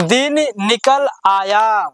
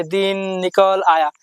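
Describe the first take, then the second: First: दिन निकल आया read slowly with a clear pause after each word; slow, careful reading. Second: Wrong way, rushed. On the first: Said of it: "चलिए पढ़ते हैं". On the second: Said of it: "जब आप ऐसे नहीं पढ़ेंगे". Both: Shown as a demonstration.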